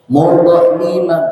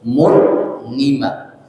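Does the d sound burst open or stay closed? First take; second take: burst; closed. First: The d bursts open with a vowel-like release. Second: The d stays closed without any release burst. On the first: The speaker calls it wrong. "nggak boleh" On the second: The speaker calls it right. "tapi nggak boleh meledak"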